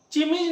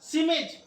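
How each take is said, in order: First: चिमिज starting with "ch" as in "chin"; wrong pronunciation. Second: सिमिज starting with a hissed "s"; "s" at the front of सिमिज, no "ch"; correct pronunciation. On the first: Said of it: "चिमिज नहीं पढ़ेंगे". (चिमिज, "च" से शुरू गलत उच्चारण) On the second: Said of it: "स भी उच्चारण निकलता है". (सिमिज, "स" से शुरू सही उच्चारण) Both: Shown as a demonstration.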